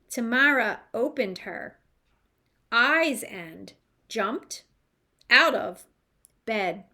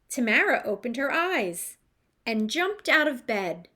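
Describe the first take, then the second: First: Each word is read separately, one at a time. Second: The words flow together in natural phrases. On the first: The speaker calls it wrong. "Sounds much better than" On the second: The speaker calls it right. "scoop the proper phrasing"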